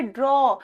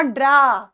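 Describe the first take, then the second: First: ड्रॉ with a rounded "aw" vowel; correct draw. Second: ड्रा with an open "aa" vowel; mispronounced draw. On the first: Teacher tells students how to say it, ड्रॉ with "aw". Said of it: "इसको बोलना है ड्रॉ". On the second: Teacher shows the wrong way, ड्रा with long "aa". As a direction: say ड्रा as "draa", no lip rounding. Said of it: "not ड्रा". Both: Shown as a demonstration.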